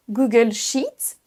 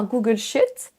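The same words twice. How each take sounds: First: "Google Sheet" with a long EE in Sheet. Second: "Google Sheet" mispronounced as Google shit; short I. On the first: Teacher modelling the right name, long EE in "Google Sheet". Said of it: "Attention à le faire assez long". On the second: Teacher showing the error, short I in "Google Sheet". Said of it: "Si vous faites un I court". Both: Shown as a demonstration.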